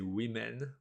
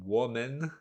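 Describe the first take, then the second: First: The first vowel sounds like 'i'. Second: The first vowel sounds like 'o'. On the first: The speaker calls it right. "you say women, although it's a O" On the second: The speaker calls it wrong. "You don't pronounce it woman"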